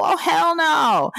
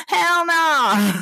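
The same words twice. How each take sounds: First: High, drawn-out mock-outraged refusal; hell no. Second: High, firm repeat of the refusal; hell no again. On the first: Host refusing to catch a cold, high mock outrage. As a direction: stretch it out high, refusing to be sick. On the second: Host insisting to listeners she won't get sick, high firm refusal. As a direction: clip it high as a final verdict. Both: Real, not acted.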